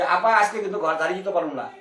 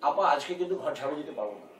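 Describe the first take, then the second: First: Loose everyday Dhaka dialect with a laugh; a maid's casual dialect; mock maid in local dialect; Bangladeshi maid dialect. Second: Prim, careful standard Bangla; formal scripted maid line; stilted drama Bangla. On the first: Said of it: "আমগো লোক এখানে কাজের লোক বলবো". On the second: Retold or imitated. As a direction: recite it like a stiff TV-drama line. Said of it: "এরকম করে বলতে হবে".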